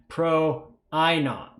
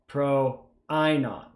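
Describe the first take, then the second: No difference in how they are said.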